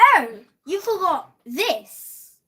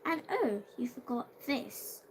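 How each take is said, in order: First: It is read loudly. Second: It is read quietly.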